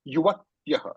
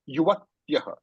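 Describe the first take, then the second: First: The half consonant before ya is held long. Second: The same.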